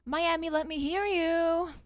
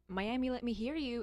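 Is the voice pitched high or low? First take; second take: high; low. First: The voice is pitched high. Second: The voice is pitched low.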